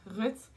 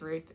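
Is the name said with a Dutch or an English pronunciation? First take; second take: Dutch; English. First: The name is said with a Dutch pronunciation. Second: The name is said with an English pronunciation. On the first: "in Dutch you actually pronounce it as Ruth" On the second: "pronouncing it as Ruth in English"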